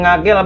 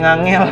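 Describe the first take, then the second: First: The middle consonant is a plain g. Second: The middle consonant is nasal ng before g. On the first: The speaker calls it right. "stasiun Ngagel Bang" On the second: The speaker calls it wrong. "bukannya Ngangel"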